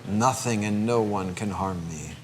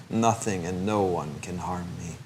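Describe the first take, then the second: Both takes have the same delivery.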